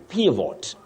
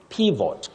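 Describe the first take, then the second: Both takes have the same delivery.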